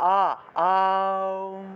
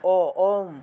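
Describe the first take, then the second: First: It starts with a wide open 'ah' sound. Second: It starts with a rounded 'oh' sound. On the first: The speaker calls it right. "মুখটা একদম হা করে যখন বাতাসটা নিবেন, অর্থাৎ আ আম এইভাবে" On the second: The speaker calls it wrong. "অ দিয়ে শুরু করলে মুখটা ছোট হয়ে যায়। ও ওম এরভাবে হয় না আসলে।"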